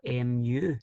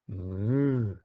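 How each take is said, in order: First: It is said the English way, unlike a moo. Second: It is said like a cow's moo. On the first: The speaker calls it wrong. "if you had it in the English language, you would choose like mu, even though I don't think that's right" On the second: The speaker calls it right. "like a wee cow saying moo"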